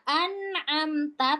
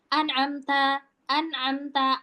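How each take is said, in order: First: An'amta with N and M drawn out equally; slow, even an'amta; evenly held N and M. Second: N and M cut short; hurried wrong example of an'amta; too-quick an'amta. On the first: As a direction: let the N and M in an'amta flow. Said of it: "temponya sama". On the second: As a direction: rush through an'amta without holding the nasals. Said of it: "tapi itu kecepetan". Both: Shown as a demonstration.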